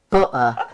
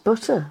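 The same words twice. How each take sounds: First: The T in the middle is silent. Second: The T in the middle is clearly pronounced. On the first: The speaker calls it wrong. "I hate it when people say butter. The silent T is creeping in everywhere" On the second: The speaker calls it right. "it's just butter"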